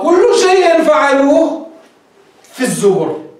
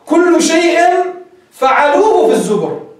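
First: The pause comes after the third word. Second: The pause comes after the second word. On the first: Everything they did is recorded in the scriptures. The speaker calls it right. "هيك صح المعنى" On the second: Everything is such that they did it in the scriptures. The speaker calls it wrong. "رائع الوقف هو الذي يعني طريقة قراءة الآية"

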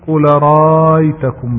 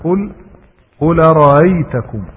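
First: The second hamza becomes a long vowel. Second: The second hamza is softened, not replaced. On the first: The speaker calls it wrong. "ما تقول" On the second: The speaker calls it right. "ليس هناك إبدال إنما هناك التسهيل"

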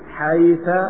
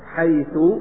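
First: The word ends with a short a vowel. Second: The word ends with a short u vowel. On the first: "وتصلح أن تكون مبنية على الفتح" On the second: "تصلح أن تكون مبنية على الضم"

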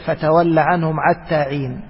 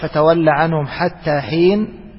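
First: Both words begin with a throaty 'ayn sound. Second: Both words begin with a breathy h sound. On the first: This is the dialect of another tribe. "على لغة هذيل" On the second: This is the dialect of one tribe. "فعلى لغة قريش"

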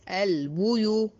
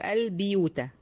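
First: The first consonant takes a u vowel. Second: The first consonant takes an i vowel. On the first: The speaker calls it right. "انتبهي لضم البه" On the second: The speaker calls it wrong. "محدش يقول البيوت"

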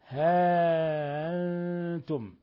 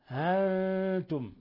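First: A long first vowel and a softened glottal stop. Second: A short first vowel and a softened glottal stop. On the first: "بإثبات الألف وتسهيل الهمزة" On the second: "حذف الألف وتسهيل الهمزة"

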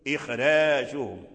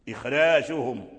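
No difference in how they are said.

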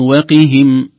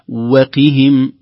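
First: The qaf's vowel is clipped, merging everything into one word. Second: The qaf is pressed lightly, separating the waw. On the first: The waw seems part of one single word. The speaker calls it wrong. "لا نختلس كسرة القاف ولا نشعر السامع بأنها مدرجة في كلمة واحدة" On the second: The waw is a separate word joined to the verb. The speaker calls it right. "نضغط ضغطة خفيفة على حرف القاف حتى تفصل الواو عن أصل الكلمة"

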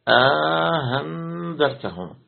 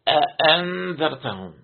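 First: The second glottal stop is softened after a long vowel. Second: Both glottal stops are fully pronounced. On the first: "حقق الهمزة الأولى وسهل الثانية وجعل بينهما ألفا" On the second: "بتحقيق الهمزة الأولى والثانية"

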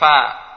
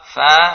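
First: The consonant is made with both lips. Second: The consonant is made with upper teeth and lower lip. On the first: The speaker calls it wrong. "Kalau diucapkan dengan bibir bawah, bibir atas, fa, fa keliru" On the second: The speaker calls it right. "ujung dua bagi ke atas dengan perut bibir bawah"

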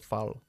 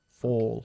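First: The vowel does not sound like 'call'. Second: The vowel sounds like the vowel in 'call'. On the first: The speaker calls it wrong. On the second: The speaker calls it right.

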